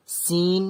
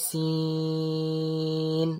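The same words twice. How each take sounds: First: Said in the usual way. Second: সিন with its vowel held on a level note; prolonged সিন. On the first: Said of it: "মাদ আছে বলে টান দিয়ে বলবো". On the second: Shown as a demonstration. Teacher shows the madd in সিন, prolonged. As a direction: draw সিন out very long. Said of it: "টান দিয়ে বলবো".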